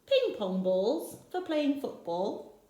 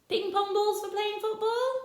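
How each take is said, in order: First: Said in the usual way. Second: High, football rising in disbelief; you can't be serious; incredulous question. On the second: Acted. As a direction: Rossetti amused by the list. Rossetti questions the list.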